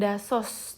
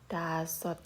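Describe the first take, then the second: First: The word ends with an s sound. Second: The word ends with a t sound. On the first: The speaker calls it wrong. "Ini dibacanya bukan dasos" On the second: The speaker calls it right. "pengucapannya adalah dasot"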